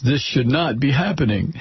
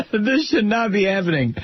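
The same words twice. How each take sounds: First: Said in the usual way. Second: Higher, amused mocking repeat; mocking laughter. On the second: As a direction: echo it scornfully straight out of a laugh. Repeats the understatement, laughing in disbelief.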